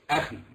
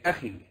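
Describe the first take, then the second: First: The final vowel is kept short. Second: The final vowel is drawn out long. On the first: The speaker calls it right. "Don't prolong what should not be prolonged" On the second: The speaker calls it wrong. "Even though you're not supposed to prolong that, you say أخي"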